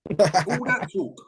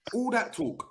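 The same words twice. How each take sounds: First: Slow, breathy whisper of All that talk. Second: Said in the usual way. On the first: Real, not acted. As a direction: whisper it slowly, mocking. Mocking the hype.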